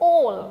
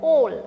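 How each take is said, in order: First: The vowel is a rounded 'aw'. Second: The same.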